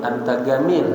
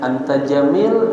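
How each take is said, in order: First: The word jamil starts with a hard g sound. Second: The word jamil starts with a j sound.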